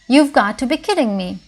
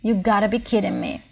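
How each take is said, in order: First: "Got to" is said as two full words. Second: "Got to" is reduced to "gotta".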